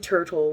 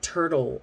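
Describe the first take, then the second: First: The middle t is a clear, crisp t. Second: The middle t sounds like a quick d. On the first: The speaker calls it wrong. "We don't say turtle" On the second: The speaker calls it right. "we almost always make it a D sound"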